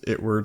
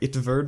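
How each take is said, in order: First: The name is pronounced like the English 'Edward'. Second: The name is pronounced with German sounds. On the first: "like Edward" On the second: "because it's German"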